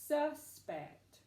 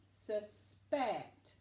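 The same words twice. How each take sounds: First: The stress is on the first syllable. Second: The stress is on the second syllable. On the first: A person thought to have done a crime. "It would be the first syllable" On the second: To think something may be true. "But what if we used it as a verb?"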